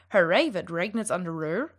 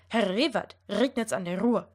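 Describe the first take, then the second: First: The R sounds are said like English R. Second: The R sounds are rolled with the tongue tip. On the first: "should not sound" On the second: "if I'm going to try to roll my R"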